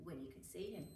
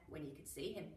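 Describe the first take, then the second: No difference in how they are said.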